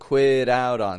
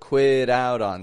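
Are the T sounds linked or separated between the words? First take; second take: linked; linked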